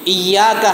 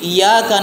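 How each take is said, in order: First: The y sound is held and doubled. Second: The y sound is short and single. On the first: Only you. The speaker calls it right. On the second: It refers to the light of the sun. The speaker calls it wrong.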